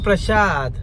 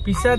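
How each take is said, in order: First: The word begins with a 'pra' cluster. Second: The word begins with a plain 'pi' sound. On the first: The speaker calls it right. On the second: The speaker calls it wrong.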